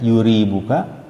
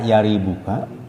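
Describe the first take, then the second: First: The first syllable has the vowel u. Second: The first syllable has the vowel a. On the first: "dibaca dengan didomahkan ya-nya" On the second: "huwa bi fathil ya'i"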